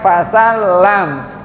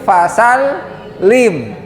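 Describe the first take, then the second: First: The last vowel sounds like a. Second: The last vowel sounds like i. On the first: The speaker calls it wrong. "bukan fasal lam" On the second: The speaker calls it right. "kalau ada baris di bawah tasdid dibacanya i"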